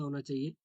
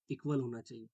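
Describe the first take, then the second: First: Teacher's prompting question; questioning rise. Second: equal stressed, with a settled falling close; teacher supplies the answer, softer and falling; firm answer. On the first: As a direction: ask होना चाहिए? with a rising question tune. Teacher asks class a question. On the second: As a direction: give the answer, landing on equal. Teacher answers own question. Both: Shown as a demonstration.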